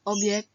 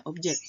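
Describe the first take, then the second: First: Objek said as "obyek"; non-standard form. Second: Objek with a hard J; standard form. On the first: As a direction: soften the J of Objek into Y. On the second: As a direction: say objek as "ob-jek". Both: Shown as a demonstration. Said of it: "kata bakunya objek".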